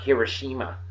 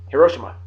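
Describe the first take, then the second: First: Hiroshima said the American way, hero-SHEE-ma; wrong American way. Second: Hiroshima said the Japanese way, he-RO-shee-ma; even syllables in Hiroshima, no SHEE stress; right Japanese way. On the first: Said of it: "It's not Hiroshima". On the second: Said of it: "It's not Hiroshima. It's Hiroshima". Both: Shown as a demonstration.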